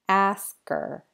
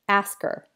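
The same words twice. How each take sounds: First: The phrase is said more slowly. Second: The phrase is said quickly. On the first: "then a little slower" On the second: "First fast"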